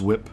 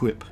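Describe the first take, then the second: First: It starts with a plain w sound. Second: It starts with a breathy hw sound. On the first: "says whip normally" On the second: "he pronounces the H"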